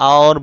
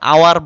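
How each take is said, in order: First: The word is said as 'aur'. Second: The word is said as 'awar'. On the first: The speaker calls it right. "और বলতে হবে" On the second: The speaker calls it wrong. "আওয়ার বললে ভুল হবে"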